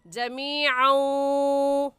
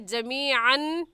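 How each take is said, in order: First: The final n sound is merged and nasalized. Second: The final n sound is pronounced clearly. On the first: The speaker calls it right. "इदगाम करेंगे तो हो जाएगा जमीअन" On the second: The speaker calls it wrong. "जमीअन कहना गलत है"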